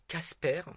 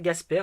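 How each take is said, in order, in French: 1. Le nom commence par un son K sourd. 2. Le nom commence par un son G voisé. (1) "mais ça se prononce techniquement Casper" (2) "alors on prononce ça Gasper"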